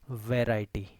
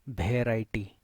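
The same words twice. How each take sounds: First: It is said in a neutral accent. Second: It is said with a local, mother-tongue accent. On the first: The speaker calls it right. "in actuality in neutral accent" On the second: The speaker calls it wrong. "जों बेखौ pronounce pronounce खालामो variety"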